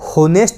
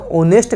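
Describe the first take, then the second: First: The word begins with an audible h sound. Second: The word begins with a vowel sound, no h. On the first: The speaker calls it wrong. "होनेस्ट नहीं कहते" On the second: The speaker calls it right. "इसे ऑनेस्ट कहते हैं"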